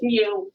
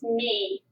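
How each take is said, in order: First: The letter name is said like 'mew'. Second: The letter name is said like 'mee'. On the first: This is how people in this country say it. "all statisticians in this country pronounce that mu" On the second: This is how Greek speakers say it. "if you speak Greek, that is not mu, it's me"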